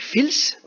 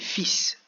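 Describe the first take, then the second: First: The L sound is pronounced in the word. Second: The L sound is left out of the word. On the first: The speaker calls it wrong. "on pourrait dire qu'il a écrit fils" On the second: The speaker calls it right. "comme si le L n'existait pas"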